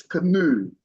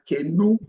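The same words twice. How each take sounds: First: "canoe" said "kuh-NOO", the end falling; right take, canoe. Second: "canoe" with a stretched first syllable, rising; wrong take, canoe. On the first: Teacher gives the correct canoe. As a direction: stress the second part of "canoe". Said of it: "So it's canoe". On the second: Teacher shows how not to say canoe. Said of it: "it's not like canoe". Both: Shown as a demonstration.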